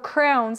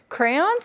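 First: The word sounds like 'crowns', with one syllable. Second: The word sounds like 'crayons', with two syllables. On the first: This is how another person says it. "crowns like Ryan" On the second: This is how the speaker herself says it. "Crayons like me"

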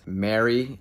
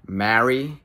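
First: The word is said to sound like 'Mary'. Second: The word is said in an old-fashioned way. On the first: This is how the speaker used to say it. "I used to say it as Mary" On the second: This is how people spoke in old films. "movies from the 1930s and they always say Marry"

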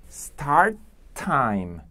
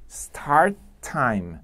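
Both takes have the same delivery.

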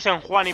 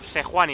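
First: There is an n sound before the middle syllable. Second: There is no n sound before the middle syllable. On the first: The speaker calls it wrong. "ya sé que digo Senhuani" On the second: The speaker calls it right. "sé que es Sejuani"

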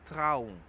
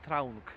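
First: The word ends in ng with no k sound. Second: The word ends with an audible hard k sound. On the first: The speaker calls it right. "tego G w ogóle nie słychać" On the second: The speaker calls it wrong. "ja nie mówię traunk"

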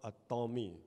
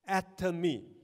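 First: The stress is on the second syllable. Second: The stress is on the first syllable. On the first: The speaker calls it wrong. "don't change it to an Atomy. Because it is not a Tom" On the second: The speaker calls it right. "it is Atomy, very atom, very small"

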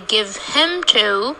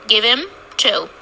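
First: The word 'him' is full, with a clear 'h' sound. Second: The word 'him' is reduced, with no 'h' sound. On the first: The pronoun is being emphasized. The speaker calls it wrong. "We don't say give him to unless we want to concentrate on the pronoun him" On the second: The pronoun is not emphasized. The speaker calls it right. "So we say give him to"

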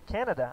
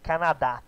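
First: It is pronounced the English way. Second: It is pronounced the Portuguese way. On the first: The speaker calls it right. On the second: The speaker calls it wrong.

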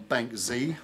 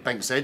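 First: The letter Z is said the American way. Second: The letter Z is said the British way. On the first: The speaker calls it wrong. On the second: The speaker calls it right.

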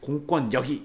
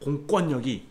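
No difference in how they are said.

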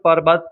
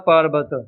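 First: The first vowel is short. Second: The first vowel is long, said lightly. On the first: The speaker calls it wrong. "ਇਸ ਨੂੰ ਪਰਬਤ ਨਹੀਂ ਬੋਲਣਾ" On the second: The speaker calls it right. "ਪਾਰਬਤ ਪੋਲਾ ਬੋਲਣਾ"

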